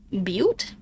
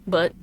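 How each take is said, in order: First: It is said with a long 'yoo' vowel, like 'butte'. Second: It is said with a short vowel, like 'butt'. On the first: The speaker calls it right. "it is pronounced butte. Butte? Like that?" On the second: The speaker calls it wrong. "I'm gonna pronounce it butt"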